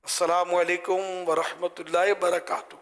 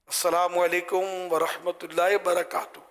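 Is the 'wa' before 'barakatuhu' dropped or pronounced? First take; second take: dropped; dropped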